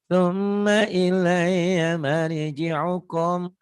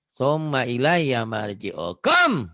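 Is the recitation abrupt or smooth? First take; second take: smooth; abrupt. First: The words are recited smoothly without holding sounds. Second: The words are recited with forceful, jerky emphasis. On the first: This is the way once the reciter is skilled. "nggak usah begitu ... jangan ditahan" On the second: This is the way to practise.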